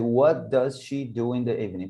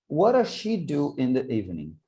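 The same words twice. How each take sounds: First: The word 'does' is pronounced fully and separately. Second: The word 'does' is reduced to a weak schwa. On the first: The speaker calls it wrong. "Porque fica muito pausado" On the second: The speaker calls it right. "esse does praticamente ele desaparece"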